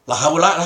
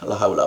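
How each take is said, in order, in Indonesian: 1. Diucapkan dengan nada tekad dan melihat ke depan. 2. Diucapkan dengan nada putus asa dan pasrah. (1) "Beda dong, udah la haula lah, kita berjuang saja" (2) "la haulana putus asa, pasrah"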